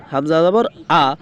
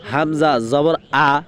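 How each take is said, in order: Both takes have the same delivery.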